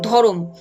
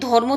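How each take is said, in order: First: An extra vowel separates the r and m. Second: The r and m sounds run together directly.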